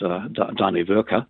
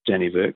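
First: The name is said with its original Scandinavian pronunciation. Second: The name is said with a local anglicized pronunciation. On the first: This is how the name was originally said. The speaker calls it right. "it's Dannevirke" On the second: This is how the locals say it. The speaker calls it wrong. "or we pronounce it wrong"

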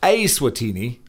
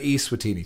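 First: The name begins with an 'eh' vowel. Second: The name begins with an 'ee' vowel. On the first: The speaker calls it right. "It's pronounced Eswatini, as in E-H" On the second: The speaker calls it wrong. "rather than Eswatini"

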